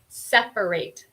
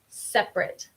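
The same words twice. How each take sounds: First: It is pronounced the way the verb sounds. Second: It is pronounced the way the adjective sounds. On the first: It names an action of dividing things. The speaker calls it wrong. "No es un verbo, entonces no vamos a decir separate" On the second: It describes something as apart or distinct. The speaker calls it right. "sino separate"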